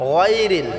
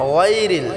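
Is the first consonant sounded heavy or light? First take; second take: heavy; heavy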